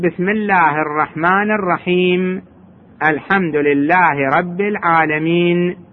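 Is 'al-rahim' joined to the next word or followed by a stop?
stop. The final m ends with no vowel before a stop. The reader stops at the end of the verse. "أما إذا وقف يقول"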